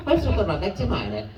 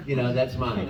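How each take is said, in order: First: High, slow cartoon Italian; Italian accent. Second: Said in the usual way. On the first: Shown as a demonstration. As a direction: play a little kid's claim in an Italian accent. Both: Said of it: "but with an Italian accent".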